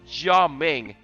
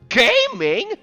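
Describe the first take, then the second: First: It starts with a 'jya' sound, then 'ming'. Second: It sounds like the English word gaming. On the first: The speaker calls it right. "It's actually pronounced Jia Ming" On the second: The speaker calls it wrong. "it's not actually uh, pronounced like that"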